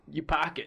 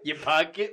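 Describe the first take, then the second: First: It is said in a Boston accent. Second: It is said in an Italian accent.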